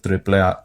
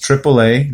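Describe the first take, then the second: First: It is pronounced with Spanish sounds. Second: It is pronounced with English sounds.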